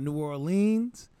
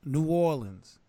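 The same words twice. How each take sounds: First: New Orleans with drawn-out "leenz"; wrong pronunciation. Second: New Orleans with short "linz" ending; local pronunciation. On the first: Showing co-host what to avoid, New Orleans with "leenz". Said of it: "it's the way you pronounce it". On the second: Showing how locals say it, New Orleans with "linz". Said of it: "the way they say it is". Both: Shown as a demonstration.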